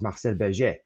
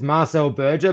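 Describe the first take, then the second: First: The name is said with a French pronunciation. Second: The name is said with an English pronunciation. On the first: "I have to say it in French" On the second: "It's Marcel Berger"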